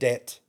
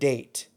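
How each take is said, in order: First: The vowel stays short without a y glide. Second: The vowel glides toward a y sound. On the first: The speaker calls it wrong. "instead of det" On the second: The speaker calls it right. "add the Y sound in your voice"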